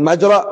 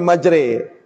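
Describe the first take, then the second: First: The final vowel is a plain open a. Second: The final vowel is tilted toward e. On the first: The speaker calls it wrong. "kan majra" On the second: The speaker calls it right. "tapi majre"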